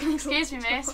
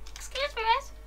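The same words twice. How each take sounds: First: It is read in a normal voice. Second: It is said in a high, squeaky voice.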